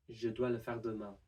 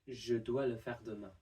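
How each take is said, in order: No difference in how they are said.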